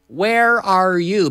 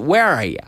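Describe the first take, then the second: First: The words are said separately, each one distinct. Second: The words run together in one linked stretch. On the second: "Linked together"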